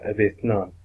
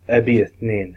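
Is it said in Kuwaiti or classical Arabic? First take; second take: classical; Kuwaiti. First: Two is said in the classical form. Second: Two is said in the Kuwaiti form.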